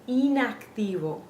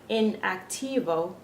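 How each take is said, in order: First: The first vowel is a pure 'ee' sound. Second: The first vowel is a short English 'i'. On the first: The speaker calls it right. "we're saying" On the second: The speaker calls it wrong. "we're not saying"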